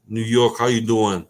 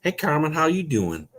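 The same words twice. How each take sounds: First: Put-on New York accent, a bit louder; quick sketch of a New York accent. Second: Amateur Southern twang, pitched up; Southern accent. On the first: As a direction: toss out a New York street greeting. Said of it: "That was a New York accent". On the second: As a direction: greet her in a hammed-up Southern accent. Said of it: "I can do a southern accent". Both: Shown as a demonstration.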